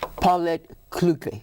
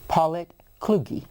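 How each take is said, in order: First: The surname has a German pronunciation. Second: The surname has an American Texan pronunciation. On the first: This is how the name was said two generations ago. "So you would say it in German" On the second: This is how the family says it now. "That is the South Texan pronunciation"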